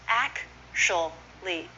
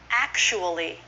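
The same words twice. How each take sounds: First: The word is said with three syllables. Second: The word is said with four syllables. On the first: "Three syllables instead of four" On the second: "instead of four"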